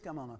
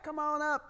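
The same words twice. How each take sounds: First: It is said in a taunting, menacing tone. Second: It is said in a warm, friendly tone. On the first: It is a challenge daring the other to approach. "in that kind of tone of voice" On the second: It is a genuine, hospitable invitation. "we'll have a cup of coffee and we'll talk about things"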